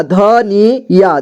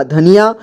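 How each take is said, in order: First: धनी या as ध, नी, या, slow and separate; syllable by syllable. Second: Said in the usual way. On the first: Shown as a demonstration. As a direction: draw out each part of धनी या. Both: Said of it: "एक ही बार में पढ़ेंगे".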